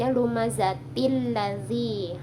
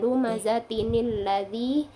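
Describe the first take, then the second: First: The words join with no added n sound. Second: An extra n sound links the two words. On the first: The speaker calls it wrong. "kita nggak bisa membaca lumazatil ladzi" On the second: The speaker calls it right. "tapi tambahkan huruf nunul wikoya"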